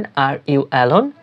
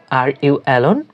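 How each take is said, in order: First: "Are you alone?" drawn out slowly; slow first take with a rise on "alone"; teacher saying "Are you alone?" slowly; slow demo. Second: Said in the usual way. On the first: Shown as a demonstration. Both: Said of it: "তাহলে ইংরেজিতে বলবেন".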